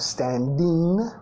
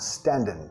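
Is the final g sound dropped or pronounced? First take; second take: pronounced; dropped. First: The word ends with a full g sound. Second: The word ends without a g sound. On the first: "no standing" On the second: "Nota que está bajando la G"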